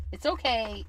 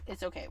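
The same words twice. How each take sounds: First: Said in the usual way. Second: Quieter self-soothing; soft reassurance. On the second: Real, not acted. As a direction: gently tell yourself it's fine. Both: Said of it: "repeated reassurance".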